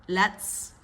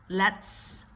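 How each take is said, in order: The two takes are said the same way.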